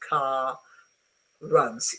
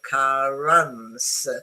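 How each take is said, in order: First: Both R sounds are pronounced separately. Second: Only one R is pronounced, linking the words. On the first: The speaker calls it wrong. "You don't need to pronounce car runs" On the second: The speaker calls it right. "You go car runs smoothly"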